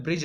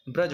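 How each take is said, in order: First: ब्रिज, with an i in bri; ब्रिज said brij like bridge; wrong form. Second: ब्रज, with a short a in bra; ब्रज said braj; correct form. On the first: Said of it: "ब्रिज नहीं होता". (गलत उच्चारण ब्रिज) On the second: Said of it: "ब्रज होता है". (सही उच्चारण ब्रज) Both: Shown as a demonstration.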